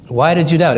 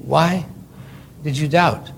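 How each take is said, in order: First: Said in the usual way. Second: Why did you doubt? asked softly, a bit quieter; soft question. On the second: Shown as a demonstration. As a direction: ask it gently, drawing it out.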